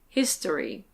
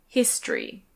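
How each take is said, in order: First: The word has three syllables, vowel kept. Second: The word has two syllables, vowel dropped. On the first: "Lots of native speakers do say it like that" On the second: "more common to say it with two syllables"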